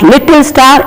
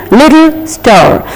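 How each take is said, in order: First: "little star" with a stressed double T; wrong doubled T. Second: "little star" drawn out slowly, one light T; correct single T. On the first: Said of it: "it is not little star". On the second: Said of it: "it is little star". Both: Shown as a demonstration.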